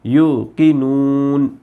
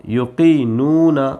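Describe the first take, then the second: First: युकीनून stopped on the nun, the final vowel dropped; slow युकीनून, cut off right after the न; verse-end pause form. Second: युकीनूना with the final ना fully voiced; full spelled form. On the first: Teacher shows the pause form at the verse's end, slow and drawn out. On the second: Teacher spelling युकीनूना out with its final ना. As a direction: say युकीनूना ending on an open ना vowel. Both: Shown as a demonstration. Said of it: "अब आयत आ गई इसलिए ये ज़बर नहीं पढ़ेंगे".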